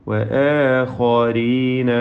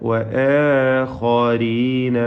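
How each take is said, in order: Both takes have the same delivery.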